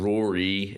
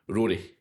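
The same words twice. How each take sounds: First: The R sounds are smooth, not rolled. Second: The R sounds are rolled quickly. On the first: "instead of Rory" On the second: "it's like the R's are rolled really quickly"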